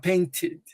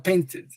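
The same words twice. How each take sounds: First: The ending is said as a separate 'id' syllable. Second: The ending is said without a separate 'id' syllable. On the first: The speaker calls it right. "tem que falar painted, painted. Entendeu? É o final id" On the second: The speaker calls it wrong. "você não pode falar painted"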